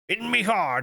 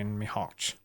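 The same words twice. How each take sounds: First: It is said in a put-on pirate voice. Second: It is read in the speaker's normal voice.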